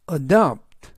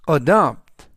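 First: Adopt said loud and clear, stress on da; pronunciation model. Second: Adopt repeated louder, da stressed; pronunciation model. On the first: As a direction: model adopt for students, stress on the second syllable. (adopt, 두 번째 음절 da에 강세) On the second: (adopt 반복, 더 크게 da에 강세) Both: Shown as a demonstration. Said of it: "adopt 라고 발음하시면 되겠고요".

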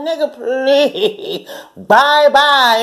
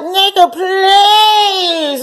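First: Laughing dismissal. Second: Dismissive brush-off. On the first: To the man, a slow laughing dismissal. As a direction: laugh him out the door. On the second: To the cold-acting man, a high mocking brush-off. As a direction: wave him off with mock disgust. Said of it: "you know, and like". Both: Retold or imitated.

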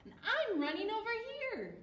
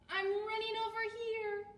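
First: Quick, high, loud character call; Billy's voice. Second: High, loud character call; Fluff's voice. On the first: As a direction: shout it out fast and high. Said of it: "said Billy". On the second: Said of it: "said Fluff". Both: A narrator's reading.

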